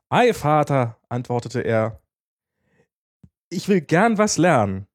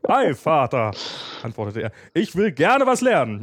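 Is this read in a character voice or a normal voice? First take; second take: normal voice; character voice. First: It is read in the speaker's normal voice. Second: It is read in a put-on character voice.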